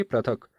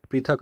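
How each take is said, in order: First: पृथक misread with "pra" at the start; wrong pronunciation. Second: पृथक begun with a short "pri"; correct pronunciation. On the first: Teacher showing the form to avoid, पृथक said "pra-thak". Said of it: "न कि". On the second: Teacher giving students the correct form, पृथक said "pri-thak". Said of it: "शुद्ध रूप है". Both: Shown as a demonstration.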